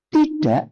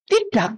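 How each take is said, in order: First: "tidak" ending in a glottal stop, tida', no released k; spoken pronunciation. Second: "Tidak" as written, with an audible final k; spelling pronunciation. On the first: Answering how it is spoken, spoken pronunciation. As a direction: swallow the final k of "tidak". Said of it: "Tapi ngomongnya". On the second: Answering what is written, spelling pronunciation. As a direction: release the k at the end of "Tidak". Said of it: "Walaupun tulisannya apa?". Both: Shown as a demonstration.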